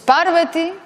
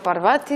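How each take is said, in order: First: The stress is on the third-last syllable. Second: The stress is not on the third-last syllable. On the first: The speaker calls it right. "Es Parvati" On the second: The speaker calls it wrong. "y no Parvati"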